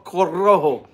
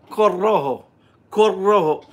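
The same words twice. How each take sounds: First: Corojo with the r barely sounded, nearly "Co-o-ho"; untrilled Corojo. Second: Corojo with a trilled r, "ko-RRo-ho"; rolled R. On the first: Reading the cigar band, Corojo without a trill. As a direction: say Corojo plainly, no rolled r. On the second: Reading the cigar band to chat, trilling the r in Corojo. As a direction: roll the r in Corojo, Spanish style. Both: Shown as a demonstration. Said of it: "I gotta roll my R's again".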